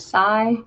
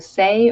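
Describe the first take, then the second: First: The vowel sounds like the one in 'eye'. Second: The vowel sounds like the one in 'day'. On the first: "So say or sigh" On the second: "So say or sigh"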